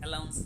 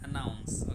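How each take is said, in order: First: The second consonant is an L sound. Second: The second consonant is an N sound. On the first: The speaker calls it wrong. "অনেক সময় ভুল করে আমরা অ্যালাউন্স বলি, অ্যালাউন্স না" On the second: The speaker calls it right. "কিন্তু অ্যানাউন্স"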